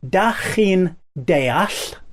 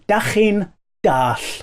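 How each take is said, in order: First: The last word is said in full. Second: The last word is said in a shortened form. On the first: "I'll say it slower so you can get the pronunciation" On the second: "Or the shorter version"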